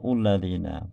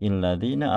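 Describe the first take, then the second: First: The word begins with a 'u' vowel. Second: The word begins with an 'i' vowel. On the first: "tidak mungkin kita membaca" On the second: "tidak mungkin kita membaca"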